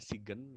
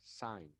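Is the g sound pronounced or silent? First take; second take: pronounced; silent. First: The g is pronounced as a separate syllable. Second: The g is silent, one syllable. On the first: The speaker calls it wrong. "tapi bukan dibaca Sigen ya" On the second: The speaker calls it right. "but you have to pronounce sign ya"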